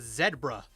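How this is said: The first syllable sounds like 'zed'. "We're in Canada, so it's Zed. So it's a zebra"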